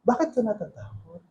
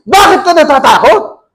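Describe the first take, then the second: First: It is said as a sincere, plain question. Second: It is said as an angry rebuke.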